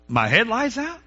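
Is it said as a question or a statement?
question. The voice rises at the end like a question. Pretends not to know the fact already. "by the inflection of your voice, you just lied"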